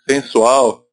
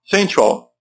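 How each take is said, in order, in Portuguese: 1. Ela é falada com vogais e sons portugueses. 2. Ela é falada com vogais e sons ingleses. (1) "cuidado para não falar" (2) "E sensual seria sensual"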